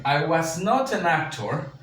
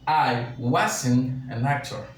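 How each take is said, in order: First: "I was not an actor" with was and not said as two separate full words, slow; slow and spell it out: "was not", stressing not; teacher models the full negative "was not" slowly; full form. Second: "I wasn't an actor" with was and not run together into one word "wasn't", very slow; teacher models the contracted "wasn't" slowly; contracted form. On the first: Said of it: "Entonces yo puedo decir". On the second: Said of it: "o yo puedo decir". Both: Shown as a demonstration.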